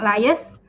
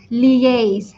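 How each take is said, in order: First: The word is said the common Malaysian way. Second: The word is said with its standard pronunciation. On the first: The speaker calls it wrong. "It's not lias. Uh, I know a lot of Malaysians say lias" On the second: The speaker calls it right. "the correct pronunciation is liaise"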